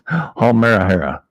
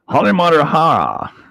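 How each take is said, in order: First: The name has no extra syllables added. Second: The name has extra syllables added. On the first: The speaker calls it right. "It's Hall Marahara, right?" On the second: The speaker calls it wrong. "I know I don't say it right"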